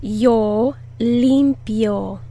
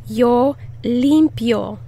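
First: Limpio stressed on LIM, slow and clear; slow model stressing LIM in limpio. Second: Limpio with the first syllable punched; first-syllable emphasis on limpio; stress on LIM. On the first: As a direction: lean on the first syllable of limpio. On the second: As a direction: hit LIM in limpio clearly. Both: Shown as a demonstration. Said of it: "Put the emphasis on the first syllable".

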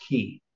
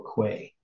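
First: Put-on old pronunciation of quay, "kee"; quay as "key". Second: Slow quay with a kw sound; quay as "kway". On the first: Explaining the original form, quay pronounced "key". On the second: Listing variants for a study partner, quay pronounced "kway". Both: Shown as a demonstration. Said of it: "originally it was pronounced key".

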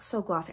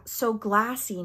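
First: "So Glossy" with the vowel of "lot"; GLOSSY with open O. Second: "So Glassy" slowly, vowel as in "cat"; GLASSY with short A. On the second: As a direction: stretch out "So Glassy" with a flat-A vowel. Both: Shown as a demonstration. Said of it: "I thought it said glassy".

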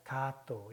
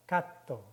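First: Gatto wrongly as "gaa-to", long open vowel; single T. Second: Gatto as "gat-to", stopped before the t; short vowel, held double t in gatto. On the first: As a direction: say gatto with no catch before the t. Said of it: "이렇게 읽으시면 안 되고". (gatto를 받침 없이 '가-또'로) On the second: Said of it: "자음이 지금 두 개씩". (gatto를 '갓-또'로 끊어서) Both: Shown as a demonstration.

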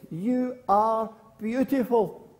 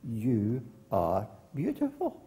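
First: High, slow, drawn-out call; girl calling to hills. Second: Echo. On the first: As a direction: call it out slowly across a valley. Girl in story calls to hills. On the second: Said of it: "That was the echo of her voice". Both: Acted.

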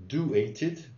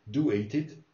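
The two takes are said the same way.

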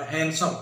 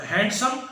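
First: हैंडसम with a silent d, han-some; correct pronunciation. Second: हैंडसम with the d sounded, hand-some; wrong pronunciation. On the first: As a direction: say हैंडसम dropping the d. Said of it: "दुरुस्त जो तलफ़्फ़ुज़ होगा". (हैंडसम में ड खामोश, सही उच्चारण) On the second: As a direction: say हैंडसम with a clear d. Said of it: "तो ये गलत होगा". (हैंडसम में ड बोलकर गलत उच्चारण) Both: Shown as a demonstration.

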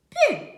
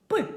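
First: П palatalised, high "pi"; soft P. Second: П as a short hard sound, "py". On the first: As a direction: say П softly palatalised, pitched high. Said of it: "м'яко і ніжно". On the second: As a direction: say П hard, not palatalised. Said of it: "вимовляємо твердо". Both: Shown as a demonstration.

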